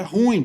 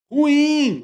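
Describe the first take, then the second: First: "ruim" run together as RÚIN; mispronounced monosyllabic "ruim"; wrong one-syllable stress. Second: "ruim" high and slow, ru-IM; corrected two-syllable "ruim", ending stressed. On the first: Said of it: "Não é ruim". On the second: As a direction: stretch the final syllable of "ruim". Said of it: "tem que ser ruim". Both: Shown as a demonstration.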